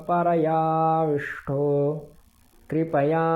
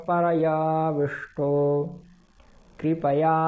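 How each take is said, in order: No difference in how they are said.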